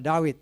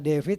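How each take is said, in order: First: The middle consonant is a W sound. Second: The middle consonant is a V sound. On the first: This is the older reading. "Kalau dulu dibacanya W" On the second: This is the modern reading. "sekarang dibacanya V"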